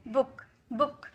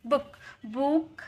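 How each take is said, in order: First: बुक with a short उ as in put; बुक quick, short उ vowel; the correct short-vowel बुक; right book. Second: बुक with a long ऊ as in boot; बुक stretched, long ऊ vowel; the wrong long-vowel बुक; wrong book. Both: Shown as a demonstration. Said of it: "बुक नहीं".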